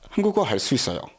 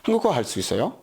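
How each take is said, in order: First: The sentence is said with a statement tune. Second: The sentence is said with a question tune. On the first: The speaker states that they speak Korean. "I speak Korean" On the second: The speaker asks whether someone speaks Korean. "Do you speak Korean? ... just the tone change there"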